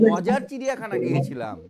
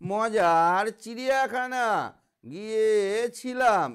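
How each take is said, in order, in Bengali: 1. এভাবে আবেগ দিয়ে, গল্প বলার মতো করে পড়া হয়েছে। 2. এভাবে সাদামাটাভাবে, কোনো আবেগ ছাড়া পড়া হয়েছে। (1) "বলতে হবে" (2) "এমনি করে পড়লে ভালো লাগবে না"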